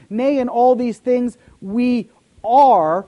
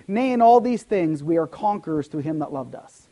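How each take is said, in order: First: Loud, slow build to a drawn-out "are"; stress on ARE. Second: Said in the usual way. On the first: Shown as a demonstration. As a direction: hold back, then land hard on "are". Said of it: "present tense again, right now". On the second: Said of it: "if God's word said this".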